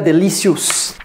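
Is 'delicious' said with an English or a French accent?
French. It is said with a French accent. The speaker calls it wrong. "Ce n'est pas delicious"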